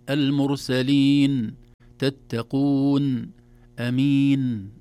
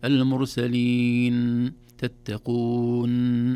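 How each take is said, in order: First: المرسلين, تتقون, أمين with a natural, moderate final N, loud and slow; correct N. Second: المرسلين and تتقون with the final N dragged out, slow and loud; overlong N. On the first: Sheikh shows the correct N ending, loud. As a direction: give the N of المرسلين its normal length. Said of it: "لا، نقول". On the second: Sheikh shows the wrong dragged N to listeners, loud. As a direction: hold the N of المرسلين too long. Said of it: "إذا لا نقول". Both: Shown as a demonstration.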